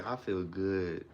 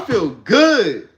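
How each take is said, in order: First: Softer, lower, slow and flat; mumbled, lifeless affirmation; low monotone. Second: Much louder and higher, slow; hyped morning affirmation; loud and excited. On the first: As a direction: say it like nothing matters. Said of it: "say it in a low monotone". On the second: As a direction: shout it with full belief. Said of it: "But you be like". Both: Shown as a demonstration.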